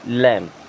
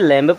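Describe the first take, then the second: First: The word ends on m with no b. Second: The word ends with an audible b sound. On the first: The speaker calls it right. "इसे पढ़ेंगे लैम" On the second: The speaker calls it wrong. "क्या इसे लैम्ब पढ़ते हैं? नहीं, बिल्कुल नहीं पढ़ेंगे"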